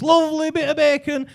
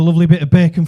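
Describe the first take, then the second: First: Much higher, stretched-out "lovely bit of bacon". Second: Said in the usual way. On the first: Retold or imitated. Man in lift to supposed Spaniard, high patronising repeat.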